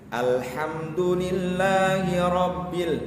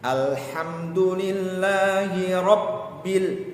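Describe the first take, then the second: First: The b in Rabbil is short and single. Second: The b in Rabbil is held and doubled. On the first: The speaker calls it wrong. "Rabbil berarti di situ tidak masuk ke huruf ba-nya" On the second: The speaker calls it right. "Seharusnya ro langsung masuk menekan ke huruf ba-nya"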